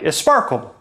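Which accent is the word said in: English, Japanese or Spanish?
Spanish. An extra e sound comes before the s.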